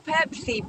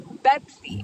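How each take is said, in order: First: The word begins with a p sound. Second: The word begins with a b sound.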